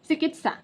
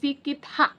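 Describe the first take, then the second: First: The word begins with a 'ch' sound. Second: The word begins with an 's' sound. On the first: This is the long-familiar everyday pronunciation. The speaker calls it right. "सालों से लोगों की आदत है चिकित्सा" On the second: This is the pronunciation the spelling rule predicts. The speaker calls it wrong. "नियम के हिसाब से सिकित्सा होना चाहिए"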